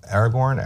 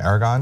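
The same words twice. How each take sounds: First: Aragorn, last syllable rhyming with "horn"; ending in -gorn. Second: Aragon, ending "-gon", lifted as a question. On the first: Host fumbling a queen's name, Aragorn with a "-gorn" ending. Trying two versions of the name. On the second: Host checking the queen's name, Aragon ending in "-gon". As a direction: say Aragon with no r in the last syllable. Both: Shown as a demonstration.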